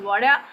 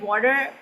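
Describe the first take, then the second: First: It is said in a British accent. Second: It is said in an American accent. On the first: "British कहेंगे" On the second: "American कहेंगे"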